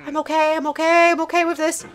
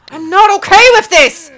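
First: High, softer repeated reassurance; strained self-soothing. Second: High, loud outburst; loud protest. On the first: Gamer talking self down, strained self-soothing. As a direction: chant it high to hold yourself together. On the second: Gamer admitting they're not coping, loud protest. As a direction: wail it out in protest. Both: Real, not acted.

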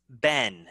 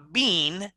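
First: "ben" with a short e; American-style "ben", short vowel; American pronunciation. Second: "bean" with a long ee; "bean" drawn out, rhyming with seen; British pronunciation. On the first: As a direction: say "ben" rhyming with ten. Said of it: "In American English". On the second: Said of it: "I don't want to hear British". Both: Shown as a demonstration.

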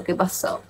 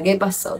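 First: Whispered echo of qué pasó; soft whispered repeat. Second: Said in the usual way. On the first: Real, not acted. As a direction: breathe the question out with no voice.

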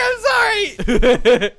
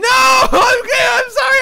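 First: Slow, high sorry yelled through laughter; laughing, drawn-out loud sorry; laughing apology. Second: High, loud apology shout; loud high sorry; yelled apology. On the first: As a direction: apologise while cracking up. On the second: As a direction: call out sorry across the game. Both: Real, not acted. Apologising after being caught cheating.

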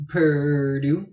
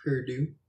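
First: PURDUE stretched long on the R, rising at the end; "Purdue" dragged out and lifted at the end; drawn-out name. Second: Said in the usual way. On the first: Shown as a demonstration. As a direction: draw out "Purdue" louder with a held R. Repeats the name two ways.

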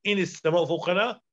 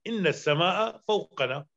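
First: "إن السماء" said "ini s-samā'u", single n and u ending; light single n in "إن", end "السماء" on u; lightened nun. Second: "إن السماء" said "inna s-samā'a", long n and a ending; emphatic doubled nun. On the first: Teacher giving the lightened example sentence, single nun. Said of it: "أخفف إن فأقول". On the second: Teacher showing the original emphatic form, doubled nun. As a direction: hold the doubled n in "إن", end "السماء" on a. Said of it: "بالتوكيد". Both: Shown as a demonstration.

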